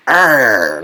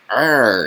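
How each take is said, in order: First: Put-on loud kid's scary arr; mock monster growl. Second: Mock monster growl. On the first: Vlogger imitating a kid scaring neighbors with a loud arr. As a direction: roar like a kid in a skeleton mask. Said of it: "runs around like".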